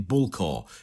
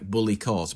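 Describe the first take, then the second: First: The name is said with two syllables, ending in core. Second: The name is said with three syllables, ending in court. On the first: The name is said as people familiar with it say it. The speaker calls it right. "it's actually Bull Core is the the way that uh, we pronounce it" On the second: The name is read from its spelling. The speaker calls it wrong. "Bully Court is how most Australians who uh, who have not heard it's been spoken"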